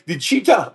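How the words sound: It is said in a put-on African accent.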